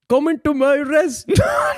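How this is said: It is said in a put-on Italian accent. "I can do an Italian accent"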